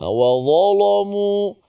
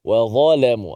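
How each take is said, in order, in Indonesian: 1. Bunyi L-nya tebal. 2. Bunyi L-nya tipis. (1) "dia akan baca dengan tebal" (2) "lam di situ dibaca nipis"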